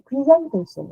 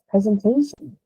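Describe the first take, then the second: First: The stress is not on the third syllable. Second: The stress is on the third syllable. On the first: The speaker calls it wrong. "I can't stand it when teachers also say presentation" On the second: The speaker calls it right. "the correct pronunciation is presentation. So it is actually the third stress"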